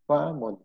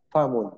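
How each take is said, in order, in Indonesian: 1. Vokal pertama diucapkan panjang. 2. Vokal pertama pendek dan cepat. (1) "seolah-olah paknya ada alifnya" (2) "dengan nada cepat, famun dan tidak ada nada tekanan"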